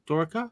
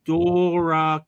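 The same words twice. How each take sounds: First: "Doraka" said quickly and softly, rising like a question; quick, unsure "Doraka" with rising tune; questioning pronunciation. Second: "Doraka" drawn out syllable by syllable; slow, careful attempt at "Doraka"; tentative name pronunciation. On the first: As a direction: ask "Doraka?" short, with a lift at the end. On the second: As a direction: stretch the first vowels of "Doraka", feeling it out. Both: Shown as a demonstration. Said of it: "is that how you pronounce that".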